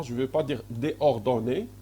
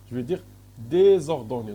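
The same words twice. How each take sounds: First: "déordonné" said as dé-ordonné, two vowels run together with no S; the rejected form "déordonné", vowel straight onto vowel; wrong form shown. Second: "désordonné" with a clear S sound linking dé and ordonné; correct form stressed. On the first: Teacher shows students the wrong form, dé-ordonné without S. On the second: Teacher gives students the right form, louder with the S. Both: Shown as a demonstration.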